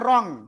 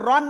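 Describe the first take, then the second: First: It ends with a held, nasal ng sound. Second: It ends with a plain, short n sound. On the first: The speaker calls it right. "অনুসারের মতো উচ্চারণ হবে" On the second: The speaker calls it wrong. "রন না"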